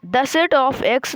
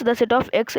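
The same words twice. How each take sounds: First: "The set of X" stretched out word by word; slowly read out. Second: Said in the usual way. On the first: Shown as a demonstration. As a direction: spell out "The set of X" slowly like dictation. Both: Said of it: "x को मतलब बोलना है हमको".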